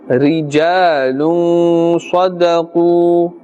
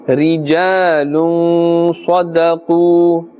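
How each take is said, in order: Both takes have the same delivery.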